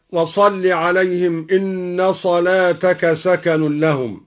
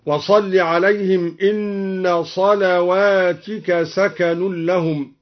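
First: Said in the usual way. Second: صلواتك with a waw after the lam and "i" on the ta, "salawātika"; plural reading. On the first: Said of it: "قرأ الدوري بواو بعد اللام". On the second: Shown as a demonstration. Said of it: "وكسر التاء على الجمع هكذا". (صلواتك بواو بعد اللام وكسر التاء)

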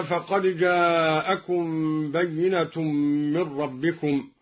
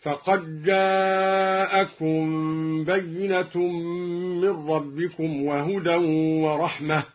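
First: Said in the usual way. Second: فقد جاءكم with the د merged into a held ج, very slow; dal merged into jim. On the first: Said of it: "أدغم الدوري الدال في الجيم". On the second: Shown as a demonstration. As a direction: run the dal straight into the jim. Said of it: "أدغم الدوري الدال في الجيم هكذا".

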